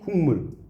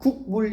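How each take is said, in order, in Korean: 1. 첫 음절은 비음 ng 소리로 끝납니다. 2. 첫 음절은 평범한 k 소리로 끝납니다. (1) "이렇게 읽는다든가" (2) "이렇게 안 읽잖아요"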